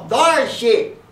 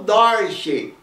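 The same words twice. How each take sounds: First: The middle consonant sounds like a D. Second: The middle consonant sounds like an R. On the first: This matches how the name is written. The speaker calls it right. "mas na verdade é um D" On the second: This is how people commonly say it. The speaker calls it wrong. "eles falam Dodge"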